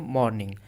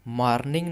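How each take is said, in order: First: The r sound is left silent. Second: The r sound is clearly pronounced. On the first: The speaker calls it right. "र silent होता है pronunciation में, तो इसे हम पढ़ेंगे मॉर्निंग" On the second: The speaker calls it wrong. "मॉर्निंग नहीं पढ़ेंगे"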